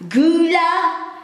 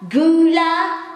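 No difference in how they are said.

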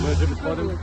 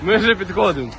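First: It is spoken quietly. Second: It is spoken at its loudest. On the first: "Ми тихіше говорили" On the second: "ще голосніше"

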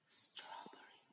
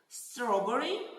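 First: The word is whispered. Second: The word is said loudly.

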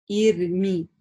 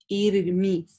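Both takes have the same delivery.

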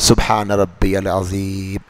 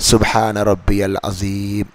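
No difference in how they are said.

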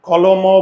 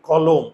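First: The word ends with an added vowel sound. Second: The word ends on the bare consonant m. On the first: The speaker calls it wrong. "কলম বলি না" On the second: The speaker calls it right. "আমরা উচ্চারণ করি কি কলম"

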